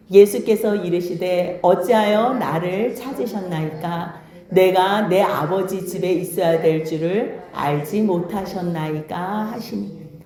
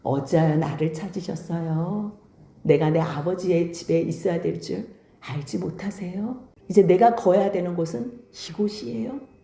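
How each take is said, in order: First: Slow, measured, low-pitched reading aloud; scripture reading. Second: Low, soft, courteous answer; polite, respectful reply. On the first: A narrator's reading. Preacher leads congregation in reading Luke aloud, slow measured scripture reading. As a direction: read the verse out solemnly and evenly, drawing out the phrases. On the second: Acted. Young Jesus answers his upset mother, quietly polite and composed. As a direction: answer gently and respectfully in a lowered, softer voice. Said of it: "예수님은 정중하게".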